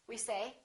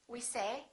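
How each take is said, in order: The two takes are said the same way.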